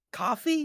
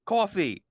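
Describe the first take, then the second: First: "Coffee?" said as kah-fee, open ah vowel, high questioning rise; other pronunciation. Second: Said in the usual way. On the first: Shown as a demonstration. Streamer testing co-host's pronunciation of coffee with an ah vowel. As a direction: try "Coffee?" with an ah sound, as if testing it. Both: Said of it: "how do you say it?".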